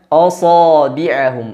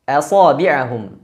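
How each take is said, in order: First: The opening vowel sounds thick and dark. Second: The opening vowel sounds thin and light.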